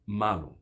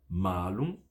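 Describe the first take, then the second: First: Malum with a short a; quick malum; short vowel. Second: Malum with a long held a; drawn-out maa-lum; long vowel. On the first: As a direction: keep "ma" brief in malum. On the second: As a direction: stretch "Ma" in Malum. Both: Shown as a demonstration. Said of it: "Não são a mesma coisa".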